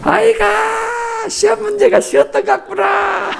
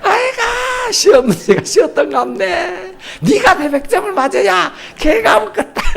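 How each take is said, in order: First: Very high, drawn-out sneering dad; mocking father. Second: Very high, laughing sneer; laughing mock father. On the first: Father dismisses his child's perfect score with a high shouting sneer. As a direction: stretch the sigh, then sneer it out. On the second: Preacher replays the father's put-down, high and laughing.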